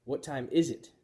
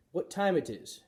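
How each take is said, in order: First: Said in the usual way. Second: Wrong learner question. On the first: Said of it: "Seiya corrected her". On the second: A narrator's reading. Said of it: "asked Missus Nasiri".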